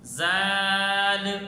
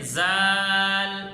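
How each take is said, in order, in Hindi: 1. स्वर छोटा है और व्यंजन सख़्त हैं। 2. स्वर छोटा है और व्यंजन सख़्त हैं।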